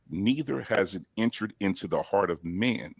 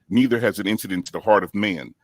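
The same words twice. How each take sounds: First: It is read more slowly. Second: It is read quickly.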